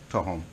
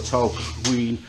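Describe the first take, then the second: First: Both the L and kw sounds are dropped. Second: Both the L and kw sounds are pronounced. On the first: This is how local people say it. The speaker calls it right. "the local people would even take the L out" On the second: It is read as the spelling suggests. The speaker calls it wrong. "you think that the Q U were there"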